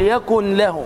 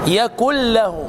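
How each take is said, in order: First: The n is pronounced separately before the l. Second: The n merges fully into a doubled l. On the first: The speaker calls it wrong. "لا تنطق النون" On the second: The speaker calls it right. "نون مضغمة في اللام"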